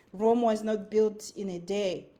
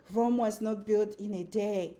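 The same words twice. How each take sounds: The two takes are said the same way.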